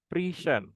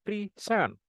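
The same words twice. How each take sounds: First: "present" as a noun, PRE stressed; stress on first syllable. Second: "present" as a verb, SENT stressed; stress on second syllable. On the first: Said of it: "with the stress on first syllable". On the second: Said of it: "the stress shift to the second syllable". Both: Shown as a demonstration.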